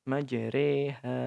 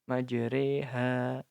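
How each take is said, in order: First: The vowel after r is tilted toward 'e'. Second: The vowel after r is tilted toward 'e'.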